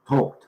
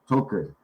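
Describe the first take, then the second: First: The -ed ending is said as a short t. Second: The -ed ending is said as an extra syllable. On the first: The speaker calls it right. "when you get that ed at the end, there, it's just talked" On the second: The speaker calls it wrong. "it looks like you should pronounce it talked, talked, but it isn't"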